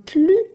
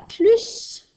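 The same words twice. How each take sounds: First: The final S is silent. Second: The final S is pronounced. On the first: It means no more, enough. "je ne prononce pas le S. Le S est muet" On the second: It means more, like addition. "ici, je vais prononcer le S"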